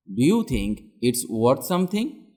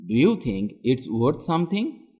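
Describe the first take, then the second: No difference in how they are said.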